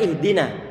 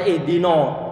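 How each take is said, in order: First: The 'na' is light and thin. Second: The 'na' is heavy and thick. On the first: The speaker calls it right. "Padahal ihdina" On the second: The speaker calls it wrong. "Kalau nggak hati-hati akan dibaca ihdina"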